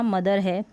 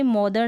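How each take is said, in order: First: मदर as "ma-dar", first vowel short "uh"; O read as short A. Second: First मदर misread as "mo-dar"; wrong O reading. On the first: Teacher corrects the reading for learners, short-uh मदर. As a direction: say मदर with "uh" in place of O. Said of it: "ओ को अ, मदर पढ़ा". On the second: Teacher shows learners the misreading, O-sounding मदर. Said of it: "ये मदर ना मदर है". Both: Shown as a demonstration.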